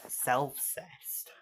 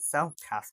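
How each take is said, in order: First: The second syllable sounds like 'sest'. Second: The second syllable sounds like 'cast'. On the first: The speaker calls it right. "you pronounce it like incest, but replace in with self" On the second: The speaker calls it wrong. "I'm pronouncing it self-cast because I read the E as an A"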